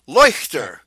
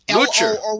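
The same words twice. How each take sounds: First: The name has a German 'oy' vowel. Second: The name sounds like 'Lootcher' with an 'oo' vowel.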